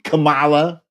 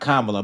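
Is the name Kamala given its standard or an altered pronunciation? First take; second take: altered; standard. First: The name is said with an altered pronunciation. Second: The name is said with its standard pronunciation. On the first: The person is deliberately disrespected. The speaker calls it wrong. "intentionally mispronouncing her name" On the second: The person is shown respect. The speaker calls it right. "he knows how to pronounce her name"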